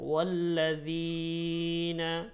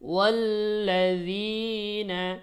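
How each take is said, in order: First: The long vowel is drawn out too long. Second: The long vowel is held only briefly. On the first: The speaker calls it wrong. "এভাবে বলেন ওয়াল্লাযীনা, তাহলে বেশি টান হয়ে যাবে" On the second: The speaker calls it right. "শুধু হালকা একটু ধাক্কার মতো হলেই একালিফ হয়ে যাবে। যেমন ওয়াল্লাযীনা"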